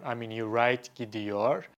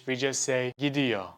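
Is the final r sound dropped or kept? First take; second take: kept; dropped. First: The final r sound is kept. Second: The final r sound is dropped. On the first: "you write" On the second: "in the spoken Turkish, we just say"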